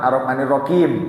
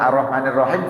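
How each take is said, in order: First: Rahim is said with a k sound. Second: Rahim is said with an h sound. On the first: "H dibaca K"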